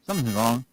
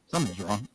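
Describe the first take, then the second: First: Said in the usual way. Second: Alarmed inner voice. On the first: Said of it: "I went". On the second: Retold or imitated. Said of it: "My mind woke up like this".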